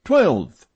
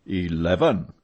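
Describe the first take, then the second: First: "Twelve" thrown back high and loud; raised-voice contradiction; insistent repeat. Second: "Eleven" held at an even, usual pitch; understated stubborn correction; unmoved repeat. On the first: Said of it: "repeated Richard". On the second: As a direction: calmly stand by "Eleven". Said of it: "repeated Lachenel". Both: A narrator's reading.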